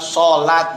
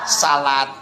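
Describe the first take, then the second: First: The first vowel sounds like 'o'. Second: The first vowel sounds like 'a'. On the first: This is closer to the original Arabic reading. "O berubah menjadi A biasanya" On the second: This is the usual Indonesian reading. "dibaca salat"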